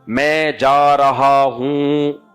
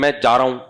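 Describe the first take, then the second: First: It is said slowly with careful articulation. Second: It is said fast and casually.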